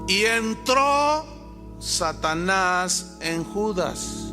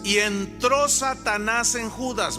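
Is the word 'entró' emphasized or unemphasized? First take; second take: emphasized; unemphasized. First: The word 'entró' is strongly emphasized. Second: The word 'entró' gets no special emphasis.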